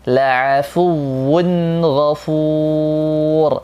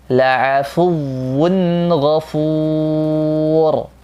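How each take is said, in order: The two takes are said the same way.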